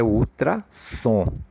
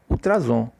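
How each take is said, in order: First: The middle consonant sounds like an S. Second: The middle consonant sounds like a Z. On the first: The speaker calls it right. "o recomendável é ultrassom" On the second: The speaker calls it wrong. "um S entre as vogais, ele funciona com o som de Z"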